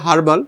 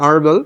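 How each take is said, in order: First: The word begins with a clear h sound. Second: The word begins with no h sound. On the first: This is how it is said in Bangladesh. "বাংলাদেশে আমরা বলি হার্বাল" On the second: This is how it is said in America. "American সাউন্ডে এটা আরবাল"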